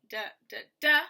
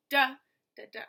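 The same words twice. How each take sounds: First: Two light "da", then punch the final "DA"; stress on third DA. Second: "DA, da, da", first one much louder; stress on first DA. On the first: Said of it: "two unstressed, then stressed". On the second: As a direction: punch the first "da", then drop off for two. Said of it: "one stressed, then two unstressed". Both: Shown as a demonstration.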